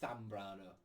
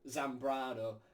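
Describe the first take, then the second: First: The first sound is a lisped th. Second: The first sound is a buzzing z. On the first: This is the mainland Spain way. "mainland Spain way of saying it would be Zambrano with the Z being a T H" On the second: This is the South American way. "the South American uh, speech of the Z, it's more like it is just like how we say a Z"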